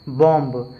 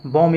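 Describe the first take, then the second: First: बॉम्ब with final B sounded; wrong pronunciation. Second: बॉम with silent final B; correct pronunciation. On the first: Teacher shows a misreading, बॉम्ब as spelt. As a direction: release a clear B after M in बॉम्ब. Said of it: "लेकिन ऐसे नहीं पढ़ना है". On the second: Teacher gives proper English reading, बॉम without B. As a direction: end बॉम on the M. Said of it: "सही अंग्रेजी उच्चारण क्या है". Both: Shown as a demonstration.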